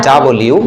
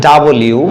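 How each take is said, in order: Both takes have the same delivery.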